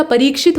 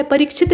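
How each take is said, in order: First: परीक्षित with long ee after r. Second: परीक्षित with short i after r; quick middle vowel in परीक्षित; wrong short i. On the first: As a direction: say परीक्षित as pa-reek-shit. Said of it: "परीक्षित होता है". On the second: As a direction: say परीक्षित as pa-rik-shit. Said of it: "परीक्षित नहीं होता". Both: Shown as a demonstration.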